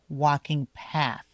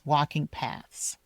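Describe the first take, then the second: First: The last word ends in a clear th sound. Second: The last word ends in an s-like sound. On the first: The speaker calls it right. "You have to stick out your tongue a little bit here" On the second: The speaker calls it wrong. "You don't want it to sound like paths"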